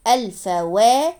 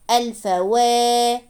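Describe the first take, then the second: First: الفوا built up syllable by syllable, ending on a brief wa; short fatha vowel. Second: الفوا with the final waa drawn out and level; long alif vowel. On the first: Teacher adding waw with fatha, short final vowel on الفوا. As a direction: end الفوا on a short open wa, rising. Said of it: "واو فتحة وا". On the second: Teacher showing madd after waw, lengthened ending on الفوا. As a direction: hold the last vowel of الفوا long, slowly. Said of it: "مد بالألف متصل مع الواو المفتوحة". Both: Shown as a demonstration.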